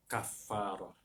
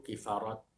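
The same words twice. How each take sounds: First: Kafarah with a soft final ah, the ta marbutah silent; correct Arabic. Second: Kifarat with an i after the k and a sounded final t; Malay pronunciation. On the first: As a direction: say Kafarah ending in a breathy ah, no t. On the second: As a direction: say kifarat the Malay way, t spoken at the end. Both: Shown as a demonstration. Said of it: "ujung ta marbutah tu dihidupkan".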